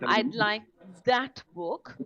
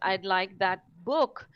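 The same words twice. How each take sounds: First: The word "that" carries the main stress. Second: The word "book" carries the main stress. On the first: The speaker wants this particular book, not another one. "referring to that particular book" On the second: The speaker wants a book rather than a magazine. "we're referring to a book and not a magazine"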